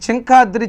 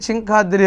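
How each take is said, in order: Both takes have the same delivery.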